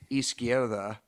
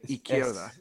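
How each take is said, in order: First: The S sound is clearly pronounced. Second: The S sound is dropped. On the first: This is not how it is said locally. "they don't say izquierda" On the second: This is how it is said locally. "They make their S's and their Z's silent. So they don't say izquierda. They say izquierda"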